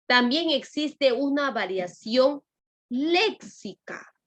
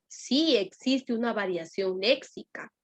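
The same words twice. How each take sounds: First: "léxica" stretched slowly and pitched up; teacher drawing out "léxica" to stress the new term; drawn-out léxica. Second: Said in the usual way. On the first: Shown as a demonstration. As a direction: hold out "léxica" slowly on a high note.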